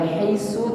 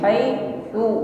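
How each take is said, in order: First: The consonant is a hissing s sound. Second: The consonant is a soft, breathy th sound. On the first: The speaker calls it wrong. "Jangan diucapkan sama dengan huruf sin. Bukan haisu" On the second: The speaker calls it right. "Tidak dengan bunyi desis... lebih tipis"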